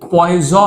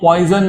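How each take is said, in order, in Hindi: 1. शब्द का अंत स्वर से होता है, n नहीं। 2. शब्द का अंत n ध्वनि से होता है। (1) "वो पॉइजो है" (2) "वो पॉइजन नहीं है"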